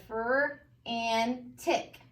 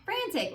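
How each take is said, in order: First: "fur and tick" slow, a gap between each part; broken into parts. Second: "Frantic" joined into one word, pitched up; blended. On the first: Teacher reads the word parts to students, piece by piece. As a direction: sound out "fur", "and", "tick" separately. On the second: Teacher reads the finished word to students, blended. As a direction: say "Frantic" whole, without gaps. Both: Shown as a demonstration. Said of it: "So we have fur and tick".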